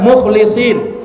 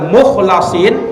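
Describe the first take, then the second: First: The middle syllable has the vowel 'i'. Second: The middle syllable has the vowel 'a'. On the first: He is one of the sincere ones. "dengan mengkasrah huruf lamnya" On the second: He is one who was saved and singled out. "dengan memfathah huruf lam"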